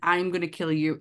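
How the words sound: It is said in a menacing possessed voice.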